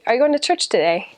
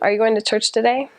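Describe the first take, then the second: First: The pitch goes up and then comes down. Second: The pitch rises without coming back down. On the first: This sounds British. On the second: This sounds American.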